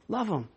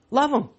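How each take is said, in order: First: Quiet. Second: Said in the usual way. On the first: Shown as a demonstration. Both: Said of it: "Love 'em. Love 'em".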